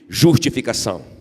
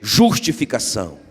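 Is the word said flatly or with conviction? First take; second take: flatly; conviction. First: It is said flatly, without conviction. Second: It is said with strong conviction.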